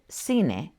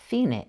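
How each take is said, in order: First: The c sounds like an s. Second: The c sounds like a th. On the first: "it sounds like an S before E or I" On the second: "pronounced cine in Spain"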